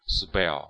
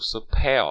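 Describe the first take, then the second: First: The consonant after s sounds like a b. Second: The consonant after s sounds like a p. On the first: The speaker calls it right. "是要读spell spell。这个是关于清辅音浊化的" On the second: The speaker calls it wrong. "不能读spell"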